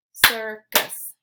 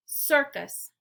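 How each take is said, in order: First: "Circus" in two loud, level beats; syllable by syllable. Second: Said in the usual way. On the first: Shown as a demonstration. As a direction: clap out both syllables of "Circus". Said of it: "clap the syllables out". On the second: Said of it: "I'll say the word".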